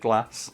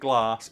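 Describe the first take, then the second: First: The A vowel is short. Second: The A vowel is long. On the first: "a long or a short A" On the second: "a long or a short A"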